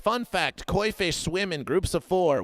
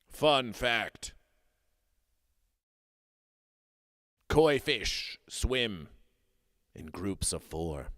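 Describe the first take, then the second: First: It is read in a plain way. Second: It is read in a dramatic way.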